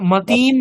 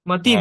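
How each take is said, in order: First: The vowel after 't' is drawn out long. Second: The vowel after 't' is kept short. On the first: The speaker calls it wrong. "মতিম নয়" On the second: The speaker calls it right. "মতিম হ্রস্ব আছে"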